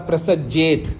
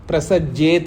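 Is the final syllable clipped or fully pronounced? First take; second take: clipped; clipped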